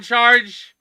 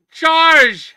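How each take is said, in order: First: Said in the usual way. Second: Big high shout of a friend's name; loud greeting call. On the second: Real, not acted. Streamer hails his friend joining, a big high shout. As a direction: call out to him across the room.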